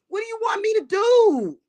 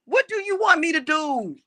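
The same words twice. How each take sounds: First: First take yelled much higher; high shouted question. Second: Angry repeat. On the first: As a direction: yell it high and loud. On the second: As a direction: repeat it hard but less high. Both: Real, not acted. Repeated rhetorical question.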